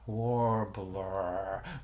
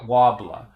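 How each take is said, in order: First: The r sounds are clearly pronounced. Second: The r sounds are dropped, Boston style. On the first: "And like you know, warbler" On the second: "it's like it's wobbler, wobbler"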